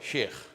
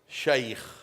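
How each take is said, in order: First: The vowel is said without the ay glide. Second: The vowel is said as an ay glide. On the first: The speaker calls it wrong. "you call him what? Sheikh" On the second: The speaker calls it right. "But in reality it is what? Shaykh"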